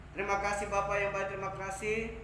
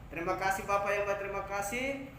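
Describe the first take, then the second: Both takes have the same delivery.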